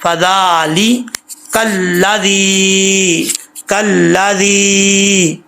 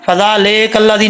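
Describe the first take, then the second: First: फ़ज़ाली with ई, कल्लादी drawn out slowly; the right recitation; correct reading. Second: फ़ज़ाले with ए instead of ई; the error to avoid; wrong reading. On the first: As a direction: stretch कल्लादी melodically. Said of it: "लाम ज़ेर ली". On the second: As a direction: say the mistaken फ़ज़ाले कल्लादी. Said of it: "इसको फ़ज़ाले कल्लादी नहीं पढ़ना". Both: Shown as a demonstration.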